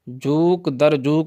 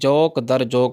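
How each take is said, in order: First: The vowel in the first word is oo. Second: The vowel in the first word is au. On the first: The speaker calls it wrong. "नहीं होता" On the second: The speaker calls it right. "होता है"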